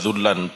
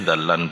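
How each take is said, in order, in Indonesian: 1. Vokal pertama adalah u. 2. Vokal pertama adalah a. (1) "dibaca dzullan boleh" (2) "dzallan boleh"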